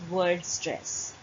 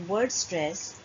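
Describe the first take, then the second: The two takes are said the same way.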